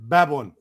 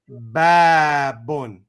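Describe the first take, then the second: First: The first vowel is short. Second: The first vowel is long. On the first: "if we said before, we, we would have said babun" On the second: "Now we put this aleph in there"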